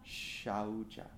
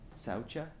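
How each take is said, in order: First: The word begins with an 'sh' sound. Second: The word begins with a plain 's' sound. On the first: This is how the word is actually pronounced. The speaker calls it right. "the actual way to pronounce that is shaucha" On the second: This is how the word looks when written. The speaker calls it wrong. "looks like it says saucha"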